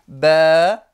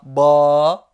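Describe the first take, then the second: First: The vowel sounds thin and sharp. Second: The vowel sounds heavy and emphatic. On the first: The speaker calls it right. "mais plutôt ba" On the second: The speaker calls it wrong. "je ne dis pas ba"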